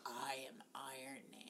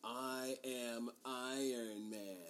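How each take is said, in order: First: Hushed whisper. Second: Slow, grave declaration; solemn Iron Man line. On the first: Shown as a demonstration. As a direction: breathe the line in a whisper. Softly quoting the movie line. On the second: Retold or imitated. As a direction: deliver it slow and weighty. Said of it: "has the".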